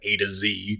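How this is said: Z is said the American way, as zee.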